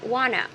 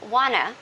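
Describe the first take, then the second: First: The two words blend into one reduced word. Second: The two words blend into one reduced word.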